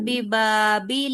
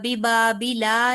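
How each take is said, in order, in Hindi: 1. शब्द एक अकेले व्यंजन पर खत्म होता है। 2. शब्द के अंत में एक स्वर जोड़ा गया है। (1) "बिबाबिल कहना था" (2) "बिबाबिला नहीं कहना"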